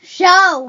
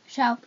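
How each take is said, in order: First: It is said with the most energy. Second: It is said with little energy.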